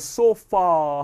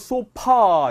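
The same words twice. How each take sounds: First: The middle consonant is an f sound. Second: The middle consonant is a p sound. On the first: The speaker calls it right. "F입니다, 여러분. 그래서 소파 하셔야 돼요" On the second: The speaker calls it wrong. "우리 한국말로 소파, 예, P 발음으로 하는데"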